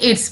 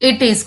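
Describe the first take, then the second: First: It is said as one contracted word. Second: It is said as two separate words. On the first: "हमने इट्स पढ़ा" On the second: "इट इज को"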